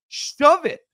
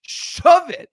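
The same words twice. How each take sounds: First: "Shove it" snapped out loud and high; angry dismissal. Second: "Shove it" shouted even louder and higher, with "Shove" hit hard; louder angry repeat. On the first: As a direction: tell him off with scorn. Rejecting player's contract demand. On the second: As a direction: really let him have it on the repeat. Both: Real, not acted.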